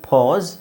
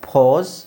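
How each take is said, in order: The two takes are said the same way.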